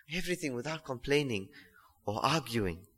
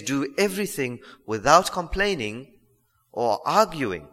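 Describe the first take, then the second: First: Verse repeated much softer, almost to himself; hushed echo of the verse. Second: Said in the usual way. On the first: Shown as a demonstration. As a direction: let it sink in, quietly. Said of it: "repeats verse much softer". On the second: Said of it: "reads verse then repeats it".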